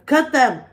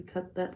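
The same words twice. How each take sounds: First: Shouted high and loud, "Cut them!" punched; a sudden hammed-up yell; mock shout. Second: Said in the usual way. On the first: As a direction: bark it out like a command.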